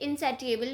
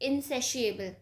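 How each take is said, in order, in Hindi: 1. बीच का व्यंजन 't' की तरह बोला जाता है। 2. बीच का व्यंजन 'sh' की तरह बोला जाता है। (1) "कुछ लोग इसे इनसेटिएबल भी बोलते हैं" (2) "the correct pronunciation according to my knowledge is"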